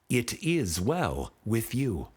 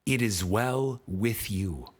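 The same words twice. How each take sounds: The two takes are said the same way.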